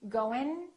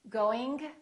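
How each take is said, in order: First: The G is dropped; the word ends in N. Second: The G is audibly released at the end. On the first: "The first two are not correct" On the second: "The first two are not correct"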